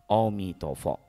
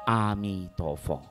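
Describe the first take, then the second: First: The name begins with an 'o' vowel sound. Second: The name begins with an 'a' vowel sound. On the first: The speaker calls it wrong. "anak-anak kecil selalu ingatnya Amitofo itu sebutnya Omitohut" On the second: The speaker calls it right. "yang sebenarnya adalah A"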